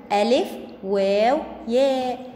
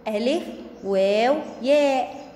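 No difference in how they are said.

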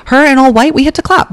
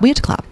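First: High, gushing we had to clap; excited gush. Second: Said in the usual way. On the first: Real, not acted. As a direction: squeal it with delight.

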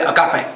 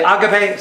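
First: "agape" said as a-GAH-pay, middle syllable stressed. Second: "agape" said as AH-ga-pay, first syllable stressed. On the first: The other way people say "agape", a-GAH-pay. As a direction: put the weight on GAH in "agape". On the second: Quoting one way the congregation says "agape", AH-ga-pay. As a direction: open "agape" on a broad AH. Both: Shown as a demonstration. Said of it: "Some say agape".

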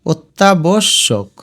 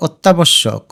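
First: অত্যাবশ্যক slowly as ot-ta, bosh-shok; syllable by syllable. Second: Said in the usual way. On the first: Shown as a demonstration. Teacher modelling for students to practise, অত্যাবশ্যক slowly in syllables. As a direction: separate each piece of অত্যাবশ্যক. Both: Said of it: "এভাবে একটু একলা উচ্চারণ করো".

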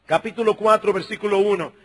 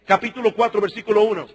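Both takes have the same delivery.

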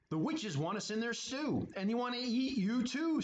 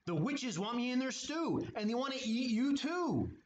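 First: Higher, lightly voiced scared skeleton; retelling the warning in a mild strained voice. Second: Higher, strained skeleton voice; a mild mock screech of alarm. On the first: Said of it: "said Skeleton". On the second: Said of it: "he screeched".

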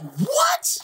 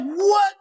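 First: Stunned what. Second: Shouted what. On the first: Reacting to label choosing De La Soul, stunned disbelief. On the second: Repeated shocked reaction. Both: Retold or imitated.

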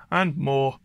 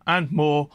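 Both takes have the same delivery.

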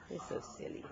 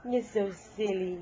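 First: Whispering. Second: Said in the usual way. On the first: Real, not acted. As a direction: breathe it in a whisper. Cooing to baby, whispered.

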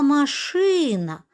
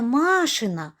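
First: «машина» stressed on the second syllable, ШИ, slowly; наголос на И в МАШИНА. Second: «машина» stressed on the first syllable, MA; наголос на А в МАШИНА. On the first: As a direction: stretch the И in «машина». («машина» з наголосом на другий склад) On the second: («машина» з наголосом на перший склад) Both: Shown as a demonstration. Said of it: "Не машина, а машина".

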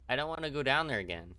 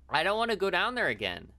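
First: Said in the usual way. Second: High, loud, wailing protest; whiny dread. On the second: Acted. Player refusing to return to the basement, loud whiny dread. Protests going back, then repeats.

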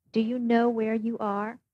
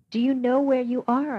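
First: Said in the usual way. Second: Insistent repeat of the same question; louder repeated question. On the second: A narrator's reading. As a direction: question asked again louder and higher. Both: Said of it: "I repeated".

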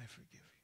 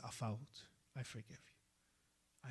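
First: "I forgive you" breathed out in a whisper; whispered forgiveness. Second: Soft, slow and gentle; hushed tender pardon; tender forgiveness. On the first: Imam's forgiveness repeated, fading. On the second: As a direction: forgive him gently, almost softly. Imam forgives the repentant man. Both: Retold or imitated.

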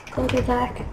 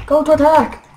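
First: Said in the usual way. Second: Shouted order, louder; loud command. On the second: Real, not acted. Commanding ally in game.

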